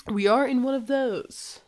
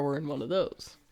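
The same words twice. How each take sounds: First: "are" stretched and lifted, slower; stress on ARE. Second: Said in the usual way. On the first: Retold or imitated. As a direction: lean on "are" with dry emphasis. Repeats line, stressing "are.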